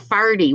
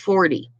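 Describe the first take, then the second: First: The first vowel sounds like 'ar', Newfoundland style. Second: The first vowel sounds like 'or', standard style. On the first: "he would say farty" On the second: "farty was forty"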